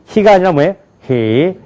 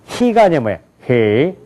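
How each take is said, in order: No difference in how they are said.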